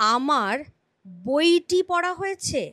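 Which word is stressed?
বইটি. The stress falls on the word বইটি. The sentence is in the passive voice, focused on the object. "যদি বইটির ওপর জোর পড়ে, বাচনভঙ্গিতে বইটির ওপর জোর পড়ে, তাহলে কর্মবাচ্য।"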